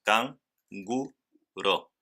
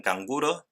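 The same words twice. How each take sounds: First: "can, gu, ro" one syllable at a time; split into syllables. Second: Said in the usual way. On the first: Shown as a demonstration. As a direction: clear pauses between "can", "gu" and "ro". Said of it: "tres sílabas". ("can, gu, ro" separado en tres sílabas) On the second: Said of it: "en canguro tenemos".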